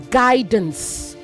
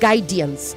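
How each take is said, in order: First: No extra vowel sound follows the D. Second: An extra 'i' sound follows the D. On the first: The speaker calls it right. "it is guidance ... After D, there's no I" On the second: The speaker calls it wrong. "not guidance"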